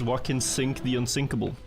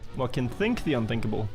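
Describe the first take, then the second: First: The S sounds are said clearly. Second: The S sounds are lisped like th. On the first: "What I'm actually saying is" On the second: "you say it with a lisp"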